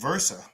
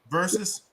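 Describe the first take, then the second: First: The word ends in an open "-a" sound. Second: The word ends in an "-us" sound. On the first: The speaker calls it wrong. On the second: The speaker calls it right.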